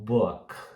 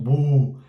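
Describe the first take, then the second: First: The vowel sits between 'oo' and 'aw'. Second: The vowel is a long tense 'oo' sound. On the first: The speaker calls it right. "é um book" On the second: The speaker calls it wrong. "nem é um bu"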